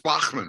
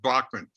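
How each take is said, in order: First: The name is said the German way. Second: The name is said the American way.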